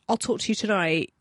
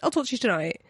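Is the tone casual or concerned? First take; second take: concerned; casual. First: It sounds concerned and caring. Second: It sounds casual and offhand.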